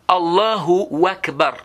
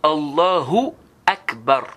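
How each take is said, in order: First: An extra 'wa' sound is inserted before Akbar. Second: No extra 'wa' sound comes before Akbar. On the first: The speaker calls it wrong. "D'autres ils ajoutent même Allahu Akbar. Non, il n'y a pas de wa là" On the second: The speaker calls it right. "C'est Allahu Akbar"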